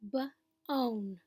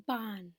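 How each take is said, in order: First: "b-own" with a long gliding O that says its name; long O bone. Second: "bon" with a short open ah, as in rod; short vowel bon. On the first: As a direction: stretch the O in "b-own" into a full long O. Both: Shown as a demonstration. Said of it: "this ah sound becomes the O sound".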